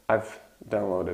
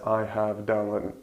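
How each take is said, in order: First: The word have is contracted to a v sound. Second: The word have is said in full. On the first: The speaker calls it right. "everybody says I've downloaded a movie" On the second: The speaker calls it wrong. "Nobody says I have downloaded"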